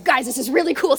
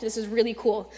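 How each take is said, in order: First: "really cool" louder, higher, eager; louder excited retake; excited hype. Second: Said in the usual way. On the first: Shown as a demonstration. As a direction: pump up "really". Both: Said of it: "I sound like Russell".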